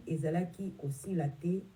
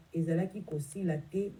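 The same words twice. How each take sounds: The two takes are said the same way.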